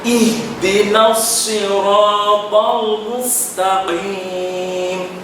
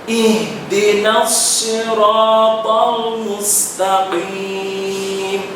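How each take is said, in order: Both takes have the same delivery.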